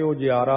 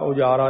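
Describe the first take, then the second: First: The word has an 'ji' sound: ujiaara. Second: The word has a plain 'ja' sound: ujaara. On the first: The speaker calls it right. "ਉਜਿਆਰਾ ਦਾ ਜਈਆ ਲੱਗਿਆ ਕਰਕੇ ਉਜਿਆਰਾ" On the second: The speaker calls it wrong. "ਉਜਾਰਾ ਨਹੀਂ ਕਰਨਾ"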